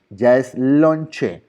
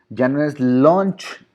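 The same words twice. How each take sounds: First: "lonche" stretched very slowly, with the final e clearly spoken; Spanish lonche. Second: "lunch" said slowly the English way, ending in a ch sound; slow, careful "lunch" as in English. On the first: ("lonche" muy lento, con la e final marcada) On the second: (pronuncia "lunch" despacio, a la inglesa) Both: Shown as a demonstration. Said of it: "cambio fonético".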